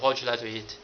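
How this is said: It is said quickly, in a rush.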